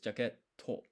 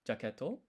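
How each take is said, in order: First: The t sound is held after a pause. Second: The t sound is short with no pause. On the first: The speaker calls it right. "it's to with two T's" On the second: The speaker calls it wrong. "it's not jaketo"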